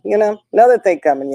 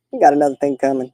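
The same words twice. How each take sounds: First: "another thing coming" repeated faster with a lift; grandma doubling down that she'll keep buying gifts; emphatic repeat. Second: Said in the usual way. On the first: Real, not acted. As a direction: push "another thing coming" quicker and higher the second time.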